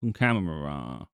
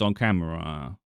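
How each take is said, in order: No difference in how they are said.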